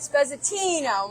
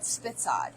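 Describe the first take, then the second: First: The word is long, with all four syllables. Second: The word is short, ending in a clipped consonant. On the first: This is the proper Italian name. "the true Italian name is" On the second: This is the family's own name for it. "We call it Spitzad"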